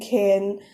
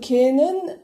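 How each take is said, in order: First: It is contracted quickly into one syllable. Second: It is said in full as two syllables.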